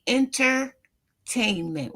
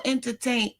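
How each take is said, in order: First: Entertainment drawn out slowly, broken after "enter"; split to stress ENTER. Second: Said in the usual way. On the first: Shown as a demonstration. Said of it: "Enter. It's entering into your psyche".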